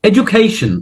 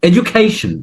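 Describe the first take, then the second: No difference in how they are said.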